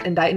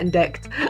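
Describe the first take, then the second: First: The word ends like 'kite', with no k sound. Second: The word ends like 'picked', with a k sound. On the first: The speaker calls it right. "is pronounced indite" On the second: The speaker calls it wrong. "not indict"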